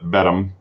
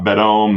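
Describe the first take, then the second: First: The name ends with a short 'um' sound. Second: The name ends with a long 'ohm' sound. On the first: The speaker calls it right. "but Bedham" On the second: The speaker calls it wrong. "not Bedome"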